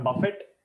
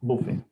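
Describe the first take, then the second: First: The final t sound is pronounced. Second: The final t sound is silent. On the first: The speaker calls it wrong. "Not buffet" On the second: The speaker calls it right. "T silent hai"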